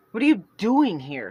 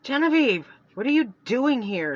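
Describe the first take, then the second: First: Louder, curt snap; snapped. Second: Sharp, higher and louder; irritated sister caught off guard, much higher and louder. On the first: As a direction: snap the question at her. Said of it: "Celeste snapped". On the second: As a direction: Celeste rounding on her sister, irritated and loud. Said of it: "Celeste was irritated". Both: Acted.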